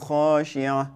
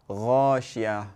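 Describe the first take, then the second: First: It starts with kh and keeps the ayn sound. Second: It starts with a voiced gh sound instead. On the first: The speaker calls it right. "this kha is a kha, right? It's a letter kha, not gha" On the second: The speaker calls it wrong. "sometimes you hear people recite غاشية"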